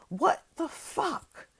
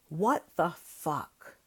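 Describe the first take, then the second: First: Slow, high, drawn-out disbelief; stunned outrage. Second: Disgusted disbelief. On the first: Outraged vlogger reacts in slow disbelief to the news. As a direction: stretch it out, aghast and high. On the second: Weary vlogger groans over protesters called terrorists. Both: Real, not acted.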